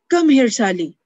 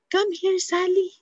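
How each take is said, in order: First: It sounds angry and harsh. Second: It sounds secretive and hushed. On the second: "the tone of being secretive"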